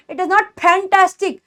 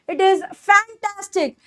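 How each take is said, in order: First: Fantastic as "phantastic" with an aspirated P; slow line, fantastic begun with plosive P; wrong puffed P. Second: Fantastic with a teeth-on-lip F; true F sound. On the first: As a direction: pop the lips to begin fantastic. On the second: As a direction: slowly, start fantastic with friction. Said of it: "ऊपर के दांत". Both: Shown as a demonstration.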